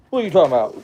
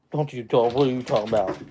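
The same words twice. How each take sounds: First: Higher, louder playful dog talk; louder teasing the dog. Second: Playful dog talk, a little louder; teasing the dog. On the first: Owner teasing his grumbling husky, higher and louder. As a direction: tease him again, bigger and higher. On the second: Owner teasing his husky for talking back, playful. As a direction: tease the dog as it grumbles. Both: Real, not acted.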